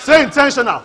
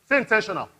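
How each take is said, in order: First: Louder call. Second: Said in the usual way. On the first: Shown as a demonstration.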